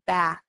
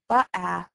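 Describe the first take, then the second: First: The consonant and vowel are blended together. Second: The consonant and vowel are said separately. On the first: The speaker calls it right. "we want them to say ba" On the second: The speaker calls it wrong. "we don't want them to say ba-ah"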